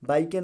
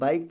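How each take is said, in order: First: An extra vowel is sounded after the final k. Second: The word ends on the k with no vowel. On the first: The speaker calls it wrong. "नहीं पढ़ा जाएगा" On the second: The speaker calls it right. "बाइक पढ़ा जाएगा"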